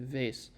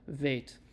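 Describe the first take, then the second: First: The letter name is said in an Ashkenazi accent. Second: The letter name is said in a standard accent. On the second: "it's often called veit"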